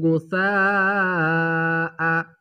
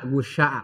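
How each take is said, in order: First: The middle consonant is a soft 's' sound. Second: The middle consonant is an 'sh' sound. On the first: The speaker calls it right. "Harusnya dibaca sa karena huruf sa ya" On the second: The speaker calls it wrong. "dia dibaca sya"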